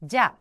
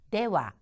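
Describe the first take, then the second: First: It is shortened to one syllable, ja. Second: It is said as two syllables, dewa. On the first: "회화체에서 자, 자 하는 식으로 취약해서 발음하는 경우가 많습니다" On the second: "네와라고 얘기를 하는데요"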